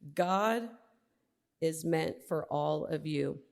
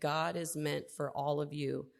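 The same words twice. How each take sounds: First: It is said more loudly. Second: It is said at normal volume.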